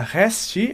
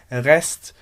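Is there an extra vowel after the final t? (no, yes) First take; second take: yes; no. First: An extra vowel sound follows the final t. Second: The word ends directly on the t sound. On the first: The speaker calls it wrong. "eu não vou falar resti" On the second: The speaker calls it right. "eu vou falar rest"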